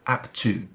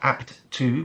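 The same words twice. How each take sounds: First: The two words run together as one. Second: The two words are said separately. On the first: The speaker calls it right. "but apt to. It flows much better in that way" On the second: The speaker calls it wrong. "Not apt to"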